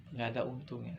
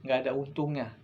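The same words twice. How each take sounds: First: "Nggak ada untungnya" repeated much softer and lower; soft, sinking repeat of "Nggak ada untungnya"; quiet echo. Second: Said in the usual way. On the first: Real, not acted. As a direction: let the repeat fall away to a hush. Repeated warning, echoed quietly.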